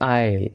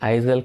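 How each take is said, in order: First: The s is not pronounced at all. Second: The s is pronounced in the middle. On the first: The speaker calls it right. "ఎస్ అనేది ఇక్కడ సైలెంట్గా ఉంటుంది" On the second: The speaker calls it wrong. "ఐజల్ కాదండి"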